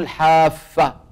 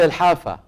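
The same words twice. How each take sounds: First: The f sound is doubled and held longer. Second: The f sound is short, not doubled. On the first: The speaker calls it wrong. "ليست بتشديد الفاء" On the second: The speaker calls it right. "يقال الحافة"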